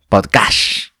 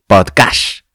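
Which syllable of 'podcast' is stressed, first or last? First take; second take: first; last. First: The stress is on the first syllable. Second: The stress is on the last syllable. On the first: "lo he reconocido como podcast con acento" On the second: "lo dice así"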